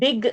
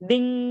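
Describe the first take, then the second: First: The word ends with a hard g sound. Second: The word ends with a nasal ng, no g. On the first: The speaker calls it wrong. "Dig, you are saying, no? Don't say g" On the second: The speaker calls it right. "Ding without a g sound"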